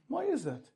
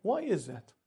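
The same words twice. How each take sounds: First: "is" lifted high and leaned on; a puzzled rhetorical why, hitting "is"; puzzled "Why IS that?" with the rise on "is"; stress on is. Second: Said in the usual way. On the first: Shown as a demonstration.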